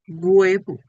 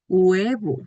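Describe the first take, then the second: First: The word begins with a g-like sound. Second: The word begins with a plain vowel sound. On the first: The speaker calls it wrong. "algunas personas lo pronuncian como huevo" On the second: The speaker calls it right. "No se pronuncia la H, pronuncio la U"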